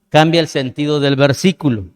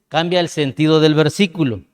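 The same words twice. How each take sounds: The two takes are said the same way.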